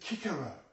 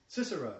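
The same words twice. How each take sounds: First: The word begins with a k sound. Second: The word begins with an s sound. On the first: This is how it was originally said. "It was Cicero, a hard C" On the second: This is how it is said today. "it's the same as Cicero"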